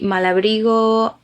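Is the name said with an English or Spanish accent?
Spanish. It is said with a Spanish accent. "I'm Spanish. I need to say it the way it is"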